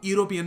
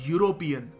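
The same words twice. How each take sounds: First: The word begins with a plain vowel sound. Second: The word begins with a 'y' sound. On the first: The speaker calls it wrong. "आप यूरोपियन नहीं कहते" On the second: The speaker calls it right. "Pronunciation का तरीका होता है वो वाई से शुरू होता है"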